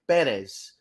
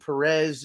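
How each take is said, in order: First: The stress is on the first syllable. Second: The stress is on the second syllable. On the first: The speaker calls it right. "the accent mark is over the first e because the correct pronunciation of of uh, that young man's uh, last name is actually" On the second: The speaker calls it wrong. "Why everyone insists on saying Perez is is beyond me"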